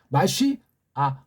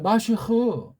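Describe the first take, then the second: First: The word ends with a separate added 'a' vowel. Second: The word ends in a breathy 'kh' sound. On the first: "이게 발음이 잘 안 돼요. 서- 서양 아이들" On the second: "우린 발음이 돼요"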